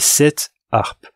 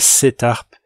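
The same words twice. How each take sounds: First: The t is not linked to harpes. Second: The t sound links straight into harpes. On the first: The speaker calls it right. "on ne fait pas la liaison" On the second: The speaker calls it wrong. "c'est pas"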